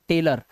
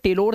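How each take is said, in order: First: The last syllable has a reduced 'uh' vowel. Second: The last syllable has a full 'o' vowel. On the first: The speaker calls it right. "ओ का उच्चारण आ और ये रा" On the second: The speaker calls it wrong. "अब इसे टेलोर नहीं पढ़ सकते"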